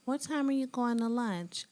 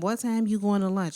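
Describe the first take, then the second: First: It is asked in a polite, easygoing tone. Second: It is asked in a pushy, demanding tone.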